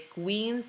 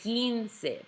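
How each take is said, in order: First: A w sound follows the k. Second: No w sound follows the k. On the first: The speaker calls it wrong. "Do not say" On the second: The speaker calls it right. "make sure you don't say that U"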